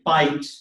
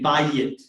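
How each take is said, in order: First: It is one syllable with a diphthong. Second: It is two syllables with an added vowel. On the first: This is the older form of the word. "what was originally" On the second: This is the later form of the word. "became bayit"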